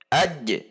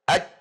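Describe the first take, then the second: First: The final j is released with a bounce. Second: The final j is held with no bounce. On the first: The speaker calls it right. "aj ada pantulan" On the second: The speaker calls it wrong. "Tidak boleh dibaca hanya aj"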